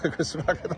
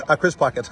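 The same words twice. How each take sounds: First: Laughing correction. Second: Said in the usual way. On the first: Real, not acted.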